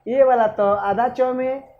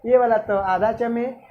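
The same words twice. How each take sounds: First: Slowly, stressing आधा च; teacher slowing down to drive the rule home; slow emphasis. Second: Said in the usual way. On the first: Shown as a demonstration. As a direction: spell the rule out slowly, word by word.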